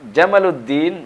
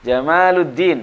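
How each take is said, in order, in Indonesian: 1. Vokal setelah m diucapkan pendek. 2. Vokal setelah m diucapkan panjang. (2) "itu artinya keindahan agama"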